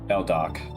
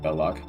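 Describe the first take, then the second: First: The name has a d sound before the o. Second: The name has no d sound before the o. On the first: The speaker calls it right. "Beldoc, not Belloc" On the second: The speaker calls it wrong. "not Belloc"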